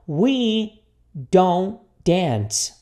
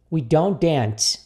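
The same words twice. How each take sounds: First: Very slow, each word held and separated; repeat-after-me model. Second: Slow, connected phrase; repeat-after-me model. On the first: Teacher leads students through the negative, very slowly. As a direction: stretch it out word by word. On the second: Teacher gives students the joined sentence to copy, slowly. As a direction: say it again as one measured sentence. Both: Shown as a demonstration. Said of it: "repita comigo aqui".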